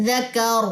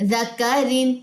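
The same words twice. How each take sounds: First: ذکر with the tanween dropped, ending on ر; waqf stop. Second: ذکرن ending on a full -rin; with tanween. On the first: Teacher showing the waqf form. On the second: Teacher reading to students with tanween. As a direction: keep the nun sound. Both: Shown as a demonstration. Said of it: "دونوں زیریں drop کرنی ہے".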